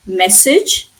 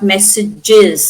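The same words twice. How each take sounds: First: MESSAGE in two syllables, MESS-ij; singular ending. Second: MESSAGES slowly as MESS-ij-IZ; extra plural syllable. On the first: Teacher gives learners the phonetic singular, two syllables. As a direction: end MESSAGE on "ij", rising. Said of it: "in phonetic symbol". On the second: Teacher shows the extra sound in the plural, added syllable. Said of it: "we are adding an H". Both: Shown as a demonstration.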